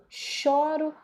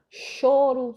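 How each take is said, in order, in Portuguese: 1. A vogal tônica é um ó aberto. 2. A vogal tônica é um ó fechado. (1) "o que difere é som" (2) "som fechado"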